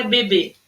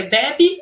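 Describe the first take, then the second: First: BEBÊ stressed last, closed ê. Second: BEBE as "BEH-bee", open first vowel. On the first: Teacher quizzing pupils on the two words, BEBÊ with closed ê. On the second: Teacher quizzing pupils on the two words, BEBE with open é. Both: Shown as a demonstration. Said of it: "Ó como é que eu falo".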